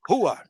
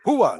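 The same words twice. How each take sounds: First: It sounds like firm agreement. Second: It sounds eager and energetic. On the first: The other person is right. "yes, you're right" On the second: The speaker is ready to act. "let's do it"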